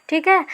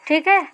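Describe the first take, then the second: The two takes are said the same way.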